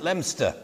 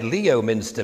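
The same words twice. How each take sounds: First: The name is pronounced the local, shortened way. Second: The name is pronounced as it is spelled. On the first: It is how local people say it. The speaker calls it right. "everybody pronounced it" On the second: It was read off a map. The speaker calls it wrong. "that's what it said on my map"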